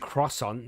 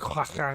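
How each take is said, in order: First: It is said with a plain English pronunciation. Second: It is said with a French pronunciation. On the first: "You can't say it normal" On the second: "you got to pronounce it croissant"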